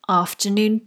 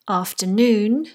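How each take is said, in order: First: The last syllable loses stress before the next word. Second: The main stress falls on the last syllable. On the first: "The R in afternoon carries a secondary stress" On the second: "the noon carries the primary stress"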